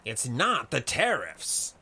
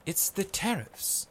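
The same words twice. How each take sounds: First: "not" punched in a slow insistent line; pressing, stress on not. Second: Maiko's repeating voice. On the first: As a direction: press the point, leaning on "not". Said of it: "pressed Codstone". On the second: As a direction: repeat "It's the tariffs" high, without punching it. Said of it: "repeated Maiko". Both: A narrator's reading.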